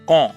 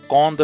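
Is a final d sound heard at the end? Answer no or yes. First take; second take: no; yes. First: The word ends without a d sound. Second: The word ends with a d sound. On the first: The speaker calls it right. "कौन कौंद नहीं है ये" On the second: The speaker calls it wrong. "कौंद नहीं है ये"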